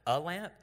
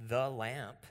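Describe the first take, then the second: First: "a" picked out before lamp; contrasting, weighted "a"; stress on a. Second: "the" set apart and drawn out before lamp; deliberate, weighted "the"; stress on the. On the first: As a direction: lean on "a" in "a lamp". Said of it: "Instead of, instead of". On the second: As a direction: lean on "the" in "the lamp". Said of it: "this word". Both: Shown as a demonstration.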